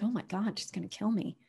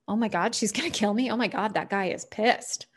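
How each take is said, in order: First: Quiet, nervous aside; a frightened hush, much softer; scared murmur. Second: Said in the usual way. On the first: Retold or imitated. Imagining meeting Lulu's mean eyes, quietly scared. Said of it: "And you're like". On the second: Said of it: "vibe you're giving".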